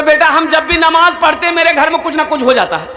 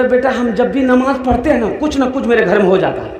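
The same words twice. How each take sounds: First: Higher, faster repeat for a listener who didn't catch it; old man repeating himself higher to the young man; louder repeat. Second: Said in the usual way. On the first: Retold or imitated. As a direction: say it again, raised and quick. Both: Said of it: "की बोली जाओ".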